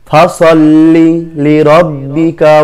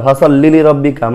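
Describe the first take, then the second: First: The phrase is said at an unhurried pace. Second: The phrase is rushed out very quickly. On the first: The speaker calls it right. "এভাবে পড়া ভালো" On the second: The speaker calls it wrong. "মানে অনেক দ্রুত"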